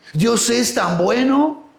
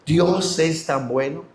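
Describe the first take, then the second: First: Slow, higher, BUENO rising at the end; wondering question. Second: Put-on slow, subdued retelling of a child's words; tearful child, imitated. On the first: Retold or imitated. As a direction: draw it out and lift BUENO like a question. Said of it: "Y me dijo". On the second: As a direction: say it slowly and low-key, imitating a moved child. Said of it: "ese niño que estaba llorando".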